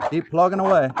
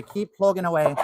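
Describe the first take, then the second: First: Loud, high Minnesota accent, imitating dad; strong Minnesota accent. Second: Higher, mock Irish lilt; a playful put-on Irish accent. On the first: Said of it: "In a strong Minnesota accent". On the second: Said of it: "We can say it in an Irish accent today".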